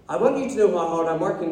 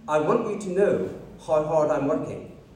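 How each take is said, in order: First: It is said in a sincere, earnest tone. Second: It is said in a whiny, self-pitying tone. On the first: The work is worth it. The speaker calls it right. "But he's not saying it like that" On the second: The work is a burden to be pitied. The speaker calls it wrong. "like me when I'm like emptying the dishwasher"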